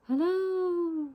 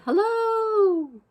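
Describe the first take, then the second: First: A high, faint hello, like it comes from far off; distant echo. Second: A high, loud shout off a mountaintop; shouted hello. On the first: The mountain echoing the child's hello back, faint and distant. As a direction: let it sound like your own voice bounced back from afar. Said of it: "I heard a voice call back". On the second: Child on a mountaintop shouting to hear the echo, loud high call. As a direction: call out big to the valley below. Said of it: "and I shouted". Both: Acted.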